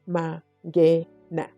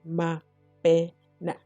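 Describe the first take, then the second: First: The middle consonant is an ng sound. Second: The middle consonant is a b sound. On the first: The speaker calls it right. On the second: The speaker calls it wrong.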